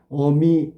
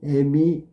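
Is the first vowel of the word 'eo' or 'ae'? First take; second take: eo; ae. First: The first vowel is the back vowel 'eo'. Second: The first vowel is the front vowel 'ae'. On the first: This is the standard form. The speaker calls it right. "물론 표준어는 어미고" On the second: This is the colloquial form. The speaker calls it wrong. "어가 애가 됐잖아"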